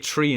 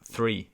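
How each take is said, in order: First: The word begins with a plain t sound. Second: The word begins with a th sound. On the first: This is the local Irish habit. "We say three" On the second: This is the standard way. "instead of three"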